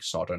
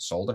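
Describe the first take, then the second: First: The word is said without an L sound. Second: The word is said with a clear L sound. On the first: This is how Americans say it. The speaker calls it wrong. "it doesn't make sense why you're saying solder" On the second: This is how the British say it. The speaker calls it right. "not solder"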